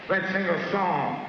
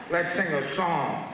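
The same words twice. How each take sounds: The two takes are said the same way.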